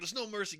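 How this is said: It is said in an excited, enthusiastic tone. The news is thrilling. "fuck yeah"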